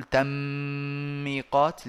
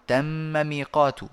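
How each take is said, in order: First: تم ميقات with the doubled mim of تم run into ميقات; wrong merged reading. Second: Said in the usual way. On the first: Shown as a demonstration. Teacher showing the wrong merging of a doubled letter. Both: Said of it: "فلا نقول".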